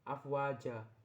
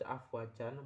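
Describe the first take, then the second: First: The word ends with a lengthened vowel. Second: The word ends with an n sound. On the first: The speaker calls it right. "melainkan afwaja" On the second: The speaker calls it wrong. "tidak dibaca afwajan"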